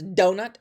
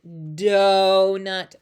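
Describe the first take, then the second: First: Said in the usual way. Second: "donut" stretched very slowly, first sound loud. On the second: Shown as a demonstration. Teacher checking the beginning sound, "donut" in slow-mo. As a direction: draw out "donut" as if in slow motion. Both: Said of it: "I do it in slow-mo".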